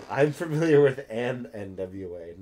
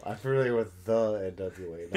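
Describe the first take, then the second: First: AN picked out, rest matter-of-fact; stress on AN. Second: THE picked out against AN; stress on THE. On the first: Friend clarifies which N W A they know, stress on AN. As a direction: lean on the word AN. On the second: Friend corrects themselves about the N W A, stress on THE. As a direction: lean on the word THE. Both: Real, not acted.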